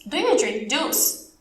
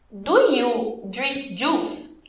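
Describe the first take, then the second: First: Slow but joined-up teacher question; slow model question. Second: Very slow English, words set apart; very slow model question. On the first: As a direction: ask it slowly in one piece. Teacher repeats question more connected. (pergunta lenta, sem pausas) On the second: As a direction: ask it word by word for learners. Teacher models question, then repeats. (pergunta bem devagar, palavra por palavra) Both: Shown as a demonstration.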